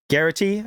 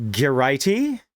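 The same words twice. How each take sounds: First: Garrity with the first syllable stressed; Garrity rhyming with "charity", rising at the end; Garrity as "GAIR-ih-tee". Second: Garrity mispronounced with a "rye" in the middle; Garrity as "guh-RYE-tee". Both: Shown as a demonstration. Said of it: "I don't care".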